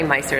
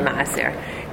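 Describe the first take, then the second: First: It is said as an English-style 'miser'. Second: It is said as Hebrew 'ma'aser' with a guttural. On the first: "Miser is how you say it in English" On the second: "but it's really ma'aser"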